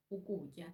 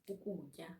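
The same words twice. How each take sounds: The two takes are said the same way.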